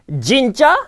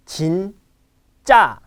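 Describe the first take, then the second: First: 진짜 with a heavy English "jeen" onset; wrong pronunciation. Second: 진짜 split, light 진 then tense 짜; correct pronunciation. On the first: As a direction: voice the first sound of 진짜 hard, like English J. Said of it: "It's not 진짜". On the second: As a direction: pause after 진, then push out 짜. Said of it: "It's actually". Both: Shown as a demonstration.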